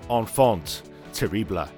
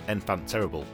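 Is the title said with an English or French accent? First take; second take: French; English. First: It is said with a French accent. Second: It is said with an English accent. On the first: "in my best French accent" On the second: "or it could just be"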